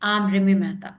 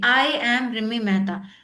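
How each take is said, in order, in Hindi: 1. I और am एक ही अक्षर में मिल जाते हैं। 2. I और am अलग-अलग शब्दों की तरह बोले जाते हैं।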